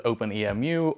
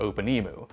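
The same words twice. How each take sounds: First: "Open E M U" with E, M and U as separate letters; letter-by-letter pronunciation. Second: "Open E mu" with "E mu" said as one word, like emu; preferred word-like pronunciation. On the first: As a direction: spell out the ending of "Open E M U" letter by letter. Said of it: "not sure which is the correct pronunciation". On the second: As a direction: say the end of "Open E mu" like the bird emu. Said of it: "I like the way it sounds better". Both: Shown as a demonstration.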